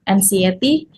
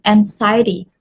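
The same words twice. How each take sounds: First: Anxiety said like en-see-EH-tee; mispronounced. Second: Anxiety said en-SY-tee; correct pronunciation. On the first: Retold or imitated. Teacher copying the student's anxiety, mispronounced. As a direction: put see in the middle of anxiety. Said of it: "mispronounced as anxiety". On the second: Shown as a demonstration. Teacher correcting the word anxiety, correctly pronounced. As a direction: stress a long i in anxiety. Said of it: "should be anxiety".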